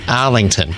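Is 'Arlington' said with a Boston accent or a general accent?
Boston. It is said in a local Boston accent. The speaker calls it right. "Let me say it correctly"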